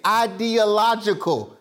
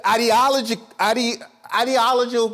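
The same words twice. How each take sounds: First: "ideological" slowly, syllable by syllable; slow down to get "ideological" out cleanly; measured, deliberate "ideological" after a stumble; slower, careful. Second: Too fast, tongue trips on "ideological"; false start, then a garbled "ideological"; tripping over words. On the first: Shown as a demonstration. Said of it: "It just gotta go slower". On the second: Real, not acted. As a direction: stumble on "ideological", rushed and broken off. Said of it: "I'm going too fast".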